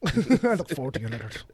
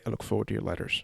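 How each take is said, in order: First: Laughing Scottish echo; light Scottish accent, laughing. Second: Soft, quick Scottish lilt; a hint of Craig Ferguson's brogue; Craig Ferguson Scottish accent. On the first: Retold or imitated. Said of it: "the great Scotsman Craig Ferguson". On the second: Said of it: "as the great Scotsman Craig Ferguson would say".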